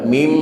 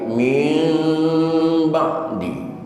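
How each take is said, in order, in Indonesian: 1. Bibir menutup tiba-tiba pada m yang keras. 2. Bibir menutup perlahan dengan dengung sengau. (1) "bukan mim" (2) "yang benar ... min ba'di. Terkatupnya bibir itu pelan-pelan"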